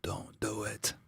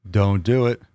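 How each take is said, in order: First: Breathy whispered warning. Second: Said in the usual way. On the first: Acted. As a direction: barely breathe it out, no voice. Pleading with chat not to.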